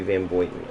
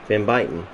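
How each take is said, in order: First: The surname's first syllable sounds like 'boy'. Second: The surname's first syllable sounds like 'buy'. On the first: "It's got to be Van Boyten" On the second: "like the American way to say it. Like B U Y is by, T E N is ten"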